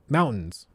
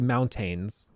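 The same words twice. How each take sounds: First: The middle t sound is dropped. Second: The middle t sound is clearly pronounced. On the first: This is how locals say it. The speaker calls it right. "we say mountains" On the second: This is how outsiders say it. The speaker calls it wrong. "We don't say mountains"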